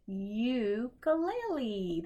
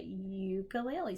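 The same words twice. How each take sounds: First: Ukulele, slow, U said like its name; long U. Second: Said in the usual way. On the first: Shown as a demonstration. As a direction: stretch the yu at the start. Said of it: "They just say their name". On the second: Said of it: "you hear the U say its name".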